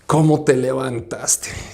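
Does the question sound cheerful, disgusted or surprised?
disgusted. It sounds disgusted, as if she looks awful.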